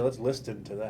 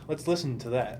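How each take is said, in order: First: The t sound is pronounced. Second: The t sound is silent. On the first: The speaker calls it wrong. "I don't say" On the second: The speaker calls it right. "like I say"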